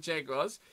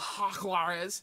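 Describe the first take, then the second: First: The name is said with English pronunciation. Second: The name is said with Spanish pronunciation. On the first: The speaker calls it wrong. "Not allowed to call them the Jaguars" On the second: The speaker calls it right. "get the spit in the back of your voice ... Spanish out there"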